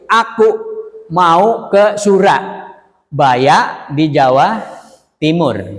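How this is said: It is recited in separate, dramatically broken phrases. "dalam bacaan puisi ... Penggalan-penggalan seperti itu"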